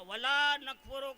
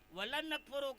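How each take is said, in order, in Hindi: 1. "la" में स्वर लंबा खींचा जाता है। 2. "la" में स्वर छोटा कर दिया जाता है। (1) "तो ला को खींचना ज़रूरी है।" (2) "लाम के ज़बर के साथ, अलिफ नहीं खींचा"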